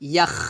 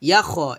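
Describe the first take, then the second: First: The syllable is said as one breathy unit. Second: The syllable is broken into two separate parts. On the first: The speaker calls it right. "ইয়াখ এভাবে" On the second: The speaker calls it wrong. "এটা না"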